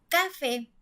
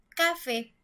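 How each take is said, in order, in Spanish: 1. El acento está en la primera sílaba. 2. El acento está en la primera sílaba.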